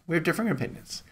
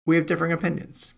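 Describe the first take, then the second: First: Softer, knowing repeat; pointed. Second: Knowing, wry tone; hint at a disagreement playfully; teasing. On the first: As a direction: lean on differing, hushed and wry. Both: Real, not acted. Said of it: "I'll just leave it at that".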